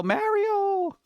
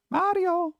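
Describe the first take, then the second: First: High, sustained call of "Mario" with a flat American A; held high-pitched mock shout, no real volume; mock yell. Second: High, put-on call of "Mario" with a broad AH and tapped R; high-pitched mock shout, falling at the end; mock yell. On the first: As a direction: imitate an actress calling out "Mario", pitched way up. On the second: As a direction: imitate calling "Mahdio" in a far higher voice. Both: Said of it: "How many times do I have to yell".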